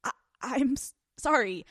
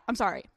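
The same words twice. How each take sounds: First: Stammered, reluctant apology; uncomfortable apology. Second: Said in the usual way. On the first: Shown as a demonstration. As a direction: get stuck on the words, hating to apologize. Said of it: "the shrewdness in my voice". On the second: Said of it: "I'm uncomfortable saying it".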